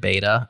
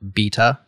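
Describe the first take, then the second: First: It is said with an American pronunciation. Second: It is said with a British pronunciation.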